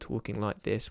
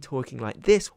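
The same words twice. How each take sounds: First: It is said in a flat monotone. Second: It is said with lively enthusiasm.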